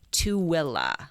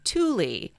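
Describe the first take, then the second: First: The name is said the local way. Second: The name is said in a non-local way. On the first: The speaker calls it right. "we should have been saying Tooele" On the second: The speaker calls it wrong. "we were pronouncing the county as Tooele"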